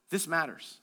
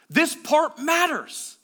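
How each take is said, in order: First: Low, soft and weighty; quiet emphasis. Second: MATTERS raised high and drawn out; slow, high punch on "This part matters"; emphatic repeat. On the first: Preacher urging them to listen to this, quiet emphasis. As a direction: drop low to make them lean in. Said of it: "Listen to this". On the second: Preacher driving the verse home, MATTERS stretched emphatically. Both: Real, not acted.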